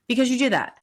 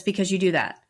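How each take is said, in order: First: Higher, louder retold outburst; mock flare-up of temper, repeated louder; zero to a thousand. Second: Said in the usual way. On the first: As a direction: snap it back, suddenly heated. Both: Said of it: "he went from zero to a thousand and says".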